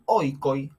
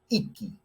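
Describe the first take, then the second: First: The vowels are said as diphthongs 'oi'. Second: The vowels are said as plain 'i' sounds. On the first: This is the older classical pronunciation. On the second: This is the later Koine pronunciation.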